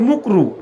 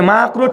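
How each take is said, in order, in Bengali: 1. প্রথম স্বরধ্বনিটি 'u' ধ্বনি। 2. প্রথম স্বরধ্বনিটি 'a' ধ্বনি। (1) "ঠিক করে বলে না" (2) "মানে মাকরু ঠিক করে"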